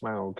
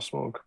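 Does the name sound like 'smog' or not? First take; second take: not smog; smog. First: The vowel does not sound like 'smog'. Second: The vowel sounds like the word 'smog'. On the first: The speaker calls it right. "A U is Smaug" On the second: The speaker calls it wrong. "and not Smog"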